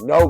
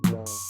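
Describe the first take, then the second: First: The word is said sharply and forcefully. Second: The word is said gently and quietly. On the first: An urgent demand to stop. "it can still be as powerful" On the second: A polite, relaxed refusal. "no can be just a soft no"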